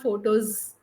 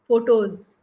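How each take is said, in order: First: The word ends with a hissing s sound. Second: The word ends with a buzzing z sound. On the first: The speaker calls it wrong. "S is not photos" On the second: The speaker calls it right. "Z sound is there"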